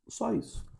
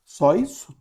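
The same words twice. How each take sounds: First: SÓ ISSO as a soft statement, falling from a high start; quiet falling reply; answering. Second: SÓ ISSO as a question, rising sharply at the end; higher, louder rising question. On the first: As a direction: answer "Só isso." softly, high on SÓ, then dropping. Answers own question. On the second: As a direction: ask "Só isso?" higher and louder, pitch lifting on ISSO. Asks, then answers own question. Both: Acted.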